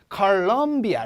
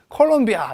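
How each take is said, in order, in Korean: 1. 강세는 두 번째 음절에 있어요. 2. 강세는 두 번째 음절에 있지 않아요. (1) "럼의 강세가 오거든요" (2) "콜롬비아 이러시는 분들도"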